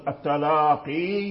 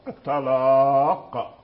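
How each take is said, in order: First: The word ends with a long 'ee' vowel. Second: The word ends on a consonant, without a vowel. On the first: The word runs on into the next word. "زادوها وصلا" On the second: The reader pauses on the word. "فإذا وقفوا حذفوها"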